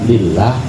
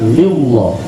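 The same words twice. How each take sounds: First: The L is pronounced light and thin. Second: The L is pronounced heavy and thick. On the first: The speaker calls it right. "Dibaca tipis atau dibaca tarqiq namanya" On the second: The speaker calls it wrong. "bukan lillah"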